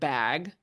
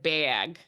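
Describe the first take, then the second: First: It is said in a standard accent. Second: It is said in a Minnesota accent.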